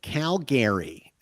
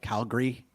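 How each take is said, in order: First: Every vowel in the name is fully sounded. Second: One vowel in the name is dropped. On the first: An outsider from the east is saying it. The speaker calls it wrong. "that's actually how it's spelled" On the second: A local is saying it. The speaker calls it right. "kind of drop an A in there, like Calgary"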